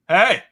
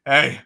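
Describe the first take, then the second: First: Loud, higher neighbourly hail; calling out. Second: Said in the usual way. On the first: Retold or imitated. Neighbour hailing a shoveller across the way, calling out. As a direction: call it across the lawn.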